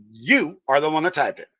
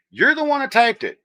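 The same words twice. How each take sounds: First: "You" set apart and punched, then a pause; emphatic "You", rest in a more level voice; stress on YOU. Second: High-pitched blame thrown back; worked-up, high comeback; indignant accusation. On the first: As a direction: lean hard on "You" before finishing the accusation. Repeats the accusation word by word. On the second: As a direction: protest high, with a falling end. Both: Real, not acted.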